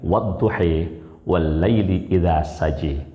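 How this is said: It is recited in a different reading style. This is a less widely followed reading. "dengan qiraah yang lain"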